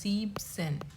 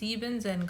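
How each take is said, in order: First: The word is said with two syllables. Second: The word is said with three syllables. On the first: The speaker calls it right. "It's just జీబ్సెన్" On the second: The speaker calls it wrong. "జీబెన్ జెన్ కాదు"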